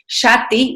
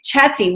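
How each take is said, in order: First: The word begins with a soft sh sound. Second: The word begins with a hard ch sound. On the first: It means address. "read it out in a francophone manner" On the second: It means playful. "when you read it in an Anglophone manner"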